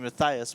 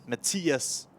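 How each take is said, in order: First: The name is said with an English pronunciation. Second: The name is said with a Danish pronunciation. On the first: "you would call me Matthias" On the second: "when I'm from Denmark, you have to say Matthias"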